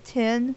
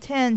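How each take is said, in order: First: The vowel sounds like the one in 'tin'. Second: The vowel sounds like the one in 'pen'. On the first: This is how someone from the north says it. "he said ten like a tin box" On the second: This is the usual local way of saying it. "instead of saying ten"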